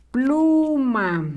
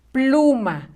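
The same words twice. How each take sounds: First: Pluma stretched out, long PLUUU; slow dictation. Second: Said in the usual way. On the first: Shown as a demonstration. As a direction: draw out both syllables of Pluma. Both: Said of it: "La sílaba plu va con rojo".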